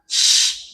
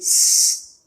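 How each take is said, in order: First: The consonant is a hushing sh sound. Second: The consonant is a heavy, thick s sound. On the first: The speaker calls it right. "harusnya sh" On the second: The speaker calls it wrong. "jadi s"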